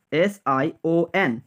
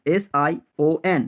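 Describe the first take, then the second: No difference in how they are said.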